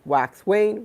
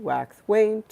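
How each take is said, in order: First: Said in the usual way. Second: Whispered wax wane. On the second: Shown as a demonstration. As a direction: breathe wax wane out as a hush.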